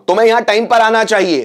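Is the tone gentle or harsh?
harsh. It sounds like a harsh order.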